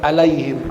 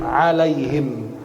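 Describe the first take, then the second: First: ALAIHIM begun with a plain glottal a; wrong hamzah start. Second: ALAIHIM slow and low with a throaty ain; deep ain on "alaihim", long and slow; correct ain start. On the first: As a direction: say "alaihim" wrongly, without the throat ain. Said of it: "Bukan alaihim". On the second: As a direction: draw out "alaihim" from a squeezed throat. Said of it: "Itu ain". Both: Shown as a demonstration.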